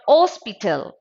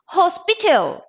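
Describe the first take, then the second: First: The starting h sound is dropped. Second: The starting h sound is pronounced. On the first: The speaker calls it wrong. "not hospital" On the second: The speaker calls it right. "Hospital, not hospital"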